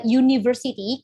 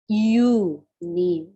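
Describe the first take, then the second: First: Said in the usual way. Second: "university" broken up slowly as you-ni-ver-sity; syllable by syllable. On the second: Shown as a demonstration. Teacher showing students the opening sound, syllable by syllable. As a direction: draw out "university" with gaps, leading on the "you" sound. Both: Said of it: "kan kamu pronounce it university".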